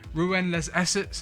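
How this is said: It is said in a South London accent. "if you're from South London like me"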